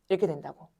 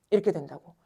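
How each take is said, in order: Both takes have the same delivery.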